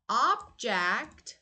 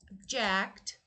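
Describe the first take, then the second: First: The stress is on the first syllable. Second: The stress is on the second syllable. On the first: It is the noun meaning a thing. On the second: It is the verb meaning to disagree.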